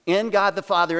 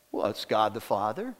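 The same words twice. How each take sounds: First: "In" pushed out firmly and louder, a touch higher; emphatic in. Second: Hushed reverent listing. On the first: Pastor to the church, stressing "In" firmly. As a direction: lean hard on "In" before God the Father. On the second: Pastor to the church, hushed and reverent. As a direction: drop to a hushed, much softer voice. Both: Acted.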